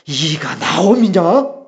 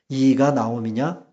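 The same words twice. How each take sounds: First: It is read with strong, dramatic feeling. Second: It is read flatly, without feeling.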